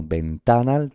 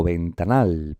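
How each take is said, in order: First: Ventanal said slowly as ven-TA-nal; wrong stress on TA. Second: Ventanal said slowly as ven-ta-NAL; stress on final syllable. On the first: Teacher rules out second option, ventanal stressed as ven-TA-nal. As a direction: lean on the middle TA of ventanal. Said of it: "tampoco, ventanal". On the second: Teacher gives the right way, ventanal stressed as ven-ta-NAL. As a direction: land long on the NAL of ventanal. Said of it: "es una palabra aguda". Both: Shown as a demonstration.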